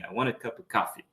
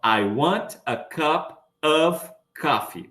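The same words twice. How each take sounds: First: The words run together with reduced forms. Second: Each word is pronounced clearly and separately. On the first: This is how people speak in everyday life. "Tudo junto" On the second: This is what learners expect to hear. "as pessoas às vezes esperam ouvir uma frase"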